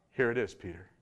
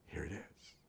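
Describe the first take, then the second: First: Said in the usual way. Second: Soft whisper, almost no voice; whispered "Here it is" barely audible; whispered reminder. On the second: Acted. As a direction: breathe it like a secret. The Spirit quietly reminds Peter.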